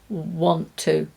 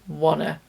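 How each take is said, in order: First: Both words are said fully and separately. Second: The words are blended into one word. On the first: "Why can we link want to" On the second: "to be wanna"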